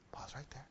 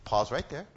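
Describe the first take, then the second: First: Whispered repeat. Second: Said in the usual way. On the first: Real, not acted.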